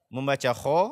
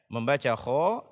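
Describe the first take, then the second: The two takes are said the same way.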